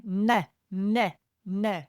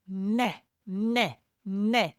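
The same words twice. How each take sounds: First: "neh, neh, neh" with tongue pressed to the palate; hungry baby cry, tongue on roof. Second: Put-on rhythmic "neh, neh, neh" baby cry; hungry baby cry. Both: Shown as a demonstration. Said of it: "Imagine you don't have any teeth and you put your tongue on the roof".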